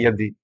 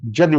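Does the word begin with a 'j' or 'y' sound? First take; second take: y; j. First: The word begins with a y sound. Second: The word begins with a j sound. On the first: The speaker calls it right. "शुद्ध का है यदि" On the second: The speaker calls it wrong. "लोग जदि बोलते हैं"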